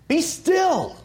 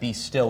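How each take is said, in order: First: It is said sharply and abruptly. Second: It is said calmly and softly.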